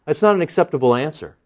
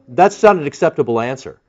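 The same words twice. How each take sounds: First: That's not an acceptable answer repeated faster and lighter; quick echo. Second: Not leaned on hard in That's not an acceptable answer; firm verdict with weight on not; stress on not. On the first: Preacher repeating his verdict to the crowd, quick and lighter. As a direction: toss off the repeat quickly, a little quieter. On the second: Preacher ruling on the Pharisees' dodge, stress on not. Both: Shown as a demonstration.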